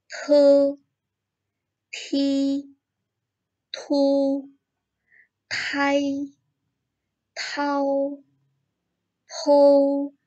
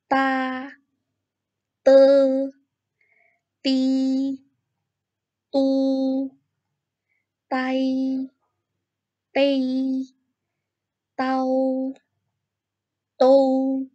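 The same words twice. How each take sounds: First: "te" to "pou" with a breathy burst after each consonant, high level first tone; aspirated th. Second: Plain t with no breath, each syllable high and even; pinyin d as t. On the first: Teacher showing students the aspirated t. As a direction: puff air hard after the t, pitch held high. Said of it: "kita tambahkan H di tengahnya". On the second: Teacher reading the d row to students, high and unaspirated. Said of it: "bacanya dengan T". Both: Shown as a demonstration.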